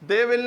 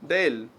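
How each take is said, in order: First: Both words are said fully and separately. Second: The words merge into one short syllable. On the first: The speaker calls it wrong. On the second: The speaker calls it right.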